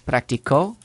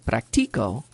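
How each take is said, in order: First: The stress is on the last syllable. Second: The stress is on the middle syllable. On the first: Someone else practiced in the past. "He practiced" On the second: The speaker practices. "the tonic syllable ... is the second to last"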